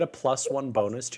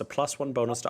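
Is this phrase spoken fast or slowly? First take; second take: slowly; fast. First: The phrase is spoken more slowly. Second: The phrase is spoken very fast. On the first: The speaker calls it right. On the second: The speaker calls it wrong.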